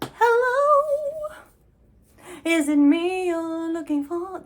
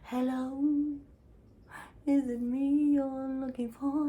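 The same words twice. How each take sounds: First: It is said in a very high pitch. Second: It is said in a lower pitch.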